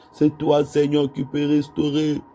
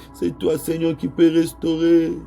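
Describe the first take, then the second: The two takes are said the same way.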